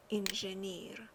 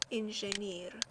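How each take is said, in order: Both takes have the same delivery.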